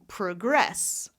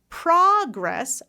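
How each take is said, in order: First: The stress is on the second syllable. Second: The stress is on the first syllable. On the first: "versus pr, pr" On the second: "ah, ah, it's stressed"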